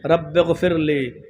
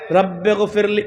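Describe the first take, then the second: First: It is said in a pleading, begging tone. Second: It is said plainly, without pleading.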